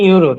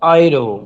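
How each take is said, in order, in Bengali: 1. এটি 'yoo' ধ্বনি দিয়ে শুরু হয়, ইংরেজি ঢঙে। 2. এটি 'oy' ধ্বনি দিয়ে শুরু হয়, জার্মান ঢঙে। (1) "ইংলিশে আমরা জানি ইউরো" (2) "কিন্তু ওরা কি বলে অয়রো"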